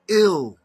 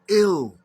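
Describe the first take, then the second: First: The vowel sounds like ih, as in ill. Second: The same.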